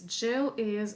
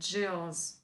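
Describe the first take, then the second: First: 'Is' is said as a separate syllable. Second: 'Is' is shortened onto the name.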